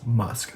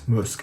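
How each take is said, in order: First: It is said with an English pronunciation. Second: It is said with a French pronunciation. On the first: "in English, we would say" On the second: "that's French"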